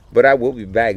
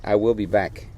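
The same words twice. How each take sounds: First: "back" said with a voiced end like "bag"; accidental "bag" for "back"; back slipping to bag. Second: Said in the usual way. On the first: Real, not acted. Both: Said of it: "Did I say bag?".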